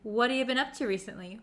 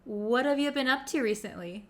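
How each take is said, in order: First: The words are shrunk and linked together smoothly. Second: The same.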